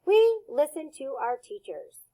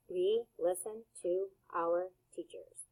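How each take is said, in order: First: Said in the usual way. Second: Quieter, careful repeat of the sentence; soft model repeat. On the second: Shown as a demonstration. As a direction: say "We listen to our teachers." softly and evenly. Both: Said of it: "repeat that sentence".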